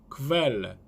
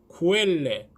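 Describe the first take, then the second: First: The k is followed by a v sound. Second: The k is followed by a u sound. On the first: The speaker calls it right. "크벨레 이렇게 발음이 된다고 생각하시면 됩니다" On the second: The speaker calls it wrong. "쿠엘레 하면 안 되시고요"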